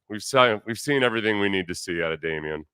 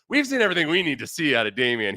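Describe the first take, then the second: First: It sounds lukewarm and noncommittal. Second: It sounds emphatic and enthusiastic. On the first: The speaker is equivocating about the player. "If he said it with a different tone of voice" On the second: The speaker fully endorses the player. "he didn't say it like"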